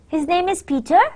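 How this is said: It is said as a polite, questioning enquiry. It politely asks whether this is so. "That's a polite question"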